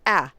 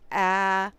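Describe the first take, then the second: First: The vowel is cut off short. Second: The vowel is held for a while. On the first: The speaker calls it wrong. "Instead of just saying" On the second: The speaker calls it right. "give it a little bit of a duration"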